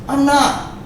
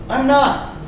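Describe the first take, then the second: No difference in how they are said.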